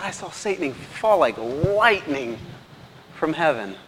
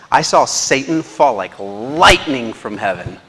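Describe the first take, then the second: First: Higher and slow, "I saw Satan fall like lightning" drawn out in wonder; slow, lifted retelling with amazement; slow awed quote. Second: Slow and loud, each word of "I saw Satan fall like lightning from heaven" landed; booming slow pronouncement; slow weighty quote. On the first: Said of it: "He said". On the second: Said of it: "He says". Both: Retold or imitated.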